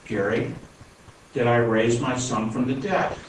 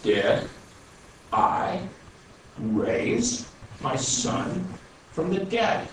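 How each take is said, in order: First: Said in the usual way. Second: Each word spaced out, very slow; very slowly. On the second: Retold or imitated. The Lord answers Gary firmly, very slow and spaced out. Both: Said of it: "I'm gonna say this real slowly".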